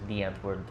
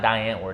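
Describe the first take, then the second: First: The first word sounds like English 'the'. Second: The first word rhymes with English 'pie'. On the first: The speaker calls it right. "It's the Antwoord" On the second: The speaker calls it wrong. "it's not die Antwoord"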